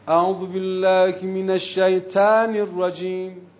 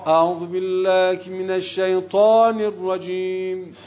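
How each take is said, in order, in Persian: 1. ط نازک تلفظ میشه، مثل t ساده. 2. ط سنگین تلفظ میشه، با حالت تفخیمی. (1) "افقی که میگی میشه" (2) "یه جورت بگی که شیطان هم خوشش بیاد"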